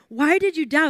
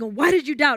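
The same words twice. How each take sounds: First: It sounds gentle and curious. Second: It sounds like a harsh rebuke.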